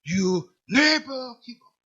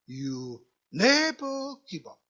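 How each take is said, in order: First: It is said in a somewhat louder voice. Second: It is said in a quiet, small voice.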